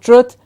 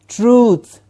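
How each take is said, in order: First: The vowel is not a long oo sound. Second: The vowel is a long oo sound. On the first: The speaker calls it wrong. "not truth" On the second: The speaker calls it right. "those were words with the oo sound"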